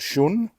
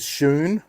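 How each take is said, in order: First: The vowel does not rhyme with moon. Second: The vowel rhymes with moon. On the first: The speaker calls it wrong. "not Shun" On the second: The speaker calls it right. "that's the correct way to say it, ... Shun rhymes with moon"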